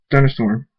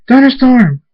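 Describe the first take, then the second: First: Said in the usual way. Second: High, very loud yell; screamed name. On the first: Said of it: "Draconet says". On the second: A narrator's reading. Friend screams to Thunderstorm as tornadoes form, loud yell. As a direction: scream the name to get through. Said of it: "Murdash screams".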